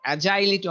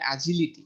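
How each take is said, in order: First: "অ্যাজাইলিটি" with a long ai, as a-jai-li-ti; wrong pronunciation. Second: "অ্যাজিলিটি" with a short i, as a-ji-li-ti; correct pronunciation. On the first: Teacher to students, giving the common wrong agility. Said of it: "অনেকে বলে অ্যাজাইল". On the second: Teacher to students, correcting how agility is said. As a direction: say "অ্যাজিলিটি" short and clean, no ai sound. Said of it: "ওটা হলো". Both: Shown as a demonstration.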